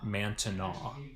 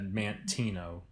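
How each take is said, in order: First: The name is said the French way. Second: The name is said the plain English way. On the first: This is how early French settlers said it. "The French Canadians, I believe, pronounced it Mantenaw" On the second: This is how it is not said in the old days. "it wasn't, of course, said Mantino"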